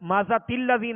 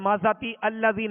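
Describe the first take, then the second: First: The words run together with no n sound. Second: The words are separated with no n sound. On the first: "नहीं पढ़ेंगे" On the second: "नहीं पढ़ेंगे"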